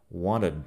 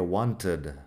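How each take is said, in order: First: "Wanted" said "wanna" with no T at all; T dropped. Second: "wanted" with a clear, crisp T; careful T. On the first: Teacher showing "Wanted" without the T. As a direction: drop the T in "Wanted", nasal n runs straight on. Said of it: "que sería wanted, pero wanted". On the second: Teacher contrasting the textbook "wanted" with a clear T. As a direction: sound the T in "wanted" fully. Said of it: "que sería wanted". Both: Shown as a demonstration.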